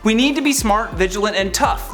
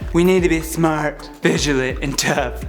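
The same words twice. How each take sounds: First: It is read in the speaker's own normal voice. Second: It is read in a put-on impression voice.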